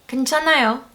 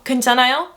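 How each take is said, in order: First: It is a statement, falling at the end. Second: It is a question, rising at the end.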